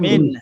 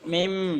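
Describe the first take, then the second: First: The syllable ends with an n sound. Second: The syllable ends with an m sound. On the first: The rule of iqlab is not applied. "ইকলাব না করলে কেমন হতো" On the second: The rule of iqlab is applied. "আর ইকলাব করার কারণে এখন"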